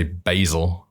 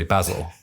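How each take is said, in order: First: BASIL with a long a, BAY-zil; American-style basil, first vowel as in bay. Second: BASIL with a short a, BAZ-il; British-style basil, first vowel as in jazz. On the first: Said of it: "what they'd say basil". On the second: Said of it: "we'd say basil". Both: Shown as a demonstration.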